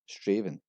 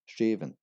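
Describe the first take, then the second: No difference in how they are said.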